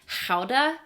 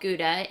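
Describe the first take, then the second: First: The word starts with a breathy H sound. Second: The word starts with a hard G sound. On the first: The speaker calls it right. "something more like howda, uh, so more like an H" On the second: The speaker calls it wrong. "we've been saying that wrong our whole lives"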